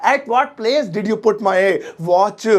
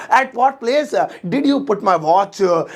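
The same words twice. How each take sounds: First: Slow, clear English; teacher modelling the sentence; spaced-out words; slow model sentence. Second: Slow, proud English; stretched out; slow repeat. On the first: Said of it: "मेरी घड़ी आपने या तुमने किस जगह रखी". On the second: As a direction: drill it for the class. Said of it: "ओह, मुझे English आ गई". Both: Shown as a demonstration.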